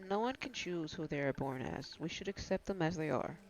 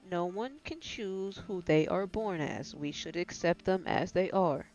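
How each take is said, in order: First: It is said at normal volume. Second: It is said loudly, projected.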